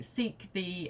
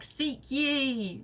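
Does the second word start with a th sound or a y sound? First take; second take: th; y. First: The second word starts with a th sound. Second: The second word starts with a y sound. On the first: The speaker calls it right. "it was pronounced the" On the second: The speaker calls it wrong. "That's not what they said"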